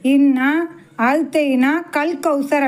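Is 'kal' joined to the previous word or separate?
separate. The 'kal' sound is split off as a separate word. God has given you something like the Kawthar. The speaker calls it wrong. "பெரும்பாலும் எப்படி சொல்லுவாங்க"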